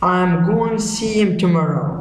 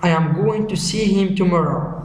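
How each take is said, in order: First: The words run together with contractions and linking. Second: Each word is said separately and in full. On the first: "normal connected speech" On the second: "pronounced in isolation"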